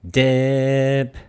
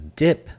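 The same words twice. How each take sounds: First: The vowel is drawn out long. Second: The vowel is said short.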